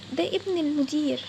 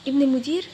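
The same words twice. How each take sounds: First: Slow, weighty reveal with a falling end. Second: Louder echo with a sharp rise at the end; shocked echo. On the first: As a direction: drag out each word of the reveal. Revealing who he is, slowly. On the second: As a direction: repeat it back, stunned. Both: Acted.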